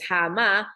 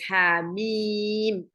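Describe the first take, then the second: First: It is read as one joined word. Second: It is read as two separate letter names. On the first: The speaker calls it wrong. "we don't pronounce it as hama" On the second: The speaker calls it right. "we pronounce it as hamim"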